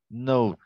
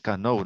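First: The word starts directly with the N sound. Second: A K sound is heard before the N. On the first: The speaker calls it right. "se dice know. La letra K no se la pronuncia" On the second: The speaker calls it wrong. "no se dice K-know"

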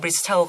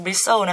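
First: The t sound is pronounced. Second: The t sound is silent. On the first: The speaker calls it wrong. "เมื่อกี้พี่ไปอ่านว่า bristle ก็ขออภัย" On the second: The speaker calls it right. "มันต้องอ่านว่า bristle นะคะคือมันจะไม่ได้ออกเสียงตัว t"

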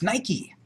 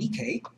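First: The name is pronounced the brand's own way. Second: The name is pronounced the traditional Greek way. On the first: This is how the company's name is said. The speaker calls it right. "It's Nike" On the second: This is the original name, not the company's. The speaker calls it wrong. "That's the traditional Greek name"

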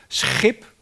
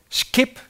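First: The word begins with a throaty 'sch' sound. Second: The word begins with a hard 'sk' sound. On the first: This is the standard pronunciation. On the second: This is how some dialect regions pronounce it.

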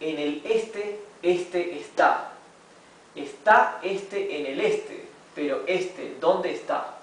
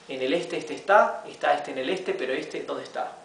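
First: The sentence is read at a slow pace. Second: The sentence is read at a fast pace. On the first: "vamos a leerlo primero despacio" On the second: "y luego más rápido"

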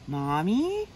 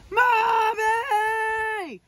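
First: It is said very quietly. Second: It is yelled as loud as possible.

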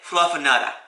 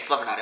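First: The r sounds are dropped, ending in ah. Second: The r sounds are fully pronounced. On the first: The speaker calls it right. "You gotta say it with a Boston accent" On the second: The speaker calls it wrong. "otherwise it's not, you're not saying Fluffernutter. You're saying Fluffernutter"

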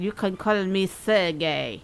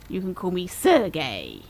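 First: It is said in a put-on Russian accent. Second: It is said in the speaker's own accent.

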